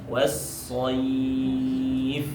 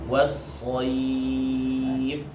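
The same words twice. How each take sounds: Both takes have the same delivery.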